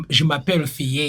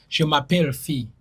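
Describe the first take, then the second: First: African accent, "Fille" as "fee-yeh"; French with an African accent. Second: "Fille" as one syllable, "fee"; proper French "Fille", ending on a long ee; correct French. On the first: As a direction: add a second syllable to "Fille", African-accented. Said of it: "oyo aba French with accent". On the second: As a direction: say "Fille" without a second syllable. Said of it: "Yoyo French omutuufu". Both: Shown as a demonstration.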